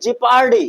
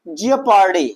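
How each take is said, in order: First: The first syllable has no extra 'o' vowel. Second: The first syllable has an extra 'o' vowel. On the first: The speaker calls it right. "ओ silent होगा" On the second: The speaker calls it wrong. "जियोपार्डी नहीं"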